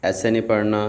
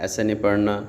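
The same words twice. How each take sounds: The two takes are said the same way.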